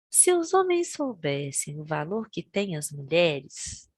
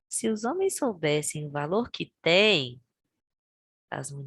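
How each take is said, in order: First: The pause comes after the word 'mulheres'. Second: The pause comes after the word 'têm'. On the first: Men would kneel at women's feet. "essa mesma frase pontuada de formas diferentes também vai mudar todo o sentido" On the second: Women would kneel at men's feet. "Mas olha a segunda"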